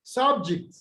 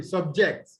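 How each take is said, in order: First: SUBject, high first syllable then falling; first-syllable stress. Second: SubJECT, weight on "ject"; second-syllable stress. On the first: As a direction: noun subject, weight on "sub". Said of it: "First syllable". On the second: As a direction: verb subject, light "sub", full "ject". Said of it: "On the second syllable". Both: Shown as a demonstration.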